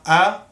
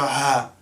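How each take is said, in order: First: The syllable begins with a glottal stop. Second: The syllable begins with a breathy h sound. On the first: The speaker calls it right. "the Hamza is an ah sound" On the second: The speaker calls it wrong. "Don't say Hamza fatah ha, no"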